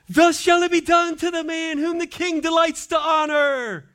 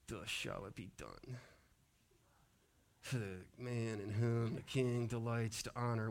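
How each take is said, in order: First: It is said proudly and eagerly. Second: It is said grudgingly and reluctantly.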